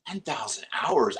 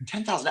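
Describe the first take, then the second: First: Said in the usual way. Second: Much higher, stunned repeat of the number; incredulous. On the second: Retold or imitated. Actor echoing the ten thousand hours figure, incredulous. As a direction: say it like you can't believe the figure.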